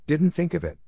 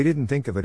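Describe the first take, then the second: First: Higher-pitched mock repetition; mocking echo. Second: Said in the usual way. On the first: A narrator's reading. Draco echoes Ernie's excuse, mocking. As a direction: throw the excuse back at him, pitched up.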